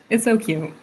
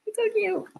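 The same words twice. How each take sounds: First: Said in the usual way. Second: Very high cooing squeak; squealing cute. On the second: Real, not acted. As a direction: coo it high like to a puppy. Dog dreaming, repeated cooing.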